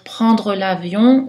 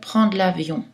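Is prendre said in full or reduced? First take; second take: full; reduced. First: Prendre is said in full with all consonants. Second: Prendre is reduced, dropping a consonant. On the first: This is a neutral pronunciation. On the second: This is a casual, conversational pronunciation.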